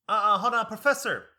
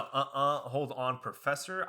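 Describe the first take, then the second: First: Loud, high sassy objection; sassy interruption. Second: Said in the usual way. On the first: Retold or imitated. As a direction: cut in loudly with attitude. Lady interrupting the professor, retold.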